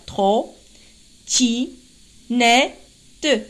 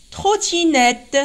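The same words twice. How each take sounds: First: "Tro, ti, ne, te" with a clear pause after each syllable. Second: Said in the usual way. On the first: Shown as a demonstration. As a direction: count out "Tro, ti, ne, te" one syllable at a time. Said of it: "Il y a quatre syllabes". (« Tro, ti, ne, te » bien détaché, syllabe par syllabe) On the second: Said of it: "quatre syllabes".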